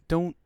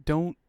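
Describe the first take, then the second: No difference in how they are said.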